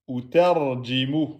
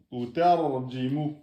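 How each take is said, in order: First: "Ou tarjimu" read slowly with a rise; teacher reading the answer; slow model reading. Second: "Ou tarjimu" repeated slowly and softer; teacher repeating the answer. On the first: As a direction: say "Ou tarjimu" carefully. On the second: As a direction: echo "Ou tarjimu" quietly. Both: Shown as a demonstration. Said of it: "Et on met bien le mim de fin".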